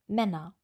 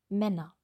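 The two takes are said the same way.

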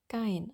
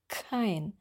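First: The word begins with a soft g sound. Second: The word begins with a hard, breathy k sound. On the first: The speaker calls it wrong. "Das klang eher wie gein bei ein paar Leuten" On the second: The speaker calls it right. "aber es ist kein"

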